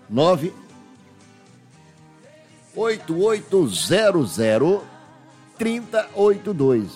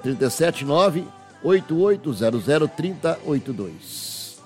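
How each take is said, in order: First: The number is said slowly, with pauses. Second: The number is said quickly, without pauses.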